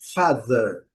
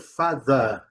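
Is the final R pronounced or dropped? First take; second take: pronounced; dropped. First: American accent, with the final R pronounced. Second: British accent, ending in a schwa without R.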